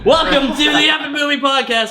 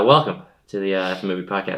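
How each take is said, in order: First: It is said with high energy. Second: It is said with low energy.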